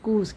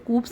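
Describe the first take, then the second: First: The word is said without a p sound. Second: The word is said with a p sound. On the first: The speaker calls it right. "यहाँ पर जो पी है वो silent है।" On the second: The speaker calls it wrong. "इसे कूप्स नहीं कभी भी बोलेंगे"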